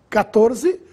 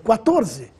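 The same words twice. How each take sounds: First: It begins with a plain k sound. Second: It begins with a kw sound. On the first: "com a letra C" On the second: "o dígrafo Q"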